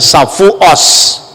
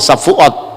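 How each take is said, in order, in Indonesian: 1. Konsonan akhir diucapkan sebagai s. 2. Konsonan akhir diucapkan sebagai t. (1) "dia tidak bisa ngomong huruf T, Safuot, tapi mengucapkan Safuos" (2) "Kalau ngomong Safuot ya Safuot"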